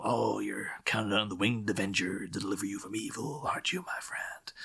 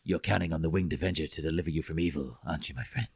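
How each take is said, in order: First: Tommy Lee Jones line. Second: Much lower, fast mumbled growl; Tommy Lee Jones impression. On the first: Retold or imitated. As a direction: quote Two-Face quietly, like a threat. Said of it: "does this, you know". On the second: Two-Face taunting the guard, deep mumbled growl. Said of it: "even though he's mumbling".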